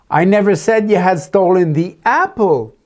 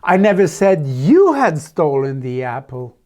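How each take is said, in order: First: The main stress falls on the word apple. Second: The main stress falls on the word you. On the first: Something other than the apple was taken. "but I told about the five dollar bill next to it that you took" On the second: Someone else took the apple. "No, I said it was Jennifer"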